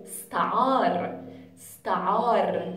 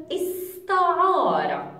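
First: استعار said as "staar", short vowel dropped; the Levantine way, no final vowel; dialect form. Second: استعار with the final short vowel, "istaara"; the full standard Arabic form. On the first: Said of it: "without the short vowel at the end". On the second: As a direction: end استعار on a clear short a. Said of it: "but without the short vowel at the end". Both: Shown as a demonstration.

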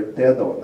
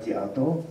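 First: Dedo with a clear e vowel, "DEH-do"; e form. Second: Diado with a ya glide, "DYA-do"; ya form. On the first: Lecturer citing an exception in the text, dedo with e. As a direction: say dedo with no ya glide. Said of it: "he writes elsewhere". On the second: Lecturer ruling out a form, diado with ya. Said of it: "not diado". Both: Shown as a demonstration.

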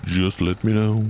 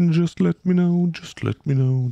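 First: Said in the usual way. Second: High mock sing-song. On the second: Shown as a demonstration. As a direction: fling "Just let me know" up high in a sing-song.

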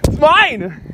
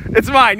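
First: High insistent it's mine; possessive whining. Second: Said in the usual way. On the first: Real, not acted. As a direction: whine that it's yours.

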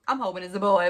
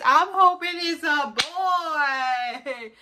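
First: Said in the usual way. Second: High, loud excited squeal. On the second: Shown as a demonstration. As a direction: squeal it out, thrilled. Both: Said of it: "But let me tell you what it is".

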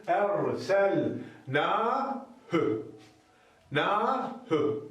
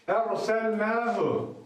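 First: "Erselnâhü" read slowly, then "Nâhü" again; reading aloud. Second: "Erselnâhu" drawn out slowly, the hu kept short; slow demo reading. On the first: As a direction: model the word for students, short hü. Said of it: "Okuyalım". (öğrencilere örnek okuma "Erselnâhü") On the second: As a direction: read "Erselnâhu" deliberately, with a long nâ and a short hu. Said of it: "Orası kısa olacak". (yavaş okunan "Erselnâhu") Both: Shown as a demonstration.

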